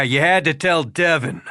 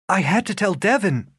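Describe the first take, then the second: First: Flat, sour repeat of her own words with stress on had; bitter mocking echo. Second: Said in the usual way. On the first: A narrator's reading. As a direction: throw her line back at her, mocking had. Rafe echoes her bitterly.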